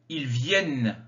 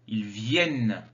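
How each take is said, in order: No difference in how they are said.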